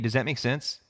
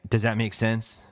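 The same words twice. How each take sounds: First: It sounds sincere and genuinely curious. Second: It sounds condescending and impatient. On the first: The speaker really wants to know if it was clear. The speaker calls it right. "Is like, hey, I really want to know" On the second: The listener is thought to be an idiot. The speaker calls it wrong. "Saying it like that is the negative"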